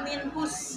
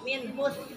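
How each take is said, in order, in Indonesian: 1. Konsonan akhirnya bunyi s biasa. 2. Konsonan akhirnya th, ujung lidah di antara gigi. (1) "bukan minhus" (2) "tapi minhus. Digigit, digigit ya"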